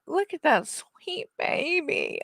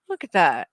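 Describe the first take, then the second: First: Drawn-out doting coo. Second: Said in the usual way. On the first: Real, not acted. Cooing over the dog again.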